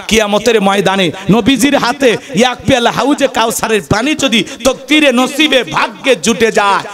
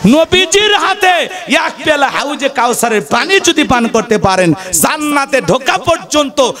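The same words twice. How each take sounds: First: Said in the usual way. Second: Raised high and shouted, then settling; ringing sermon shout that drops back down; preaching shout. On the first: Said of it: "same phrase repeated, calmer". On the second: Real, not acted. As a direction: cry out the Prophet's cup like a call to the crowd. Preacher hammers key phrase.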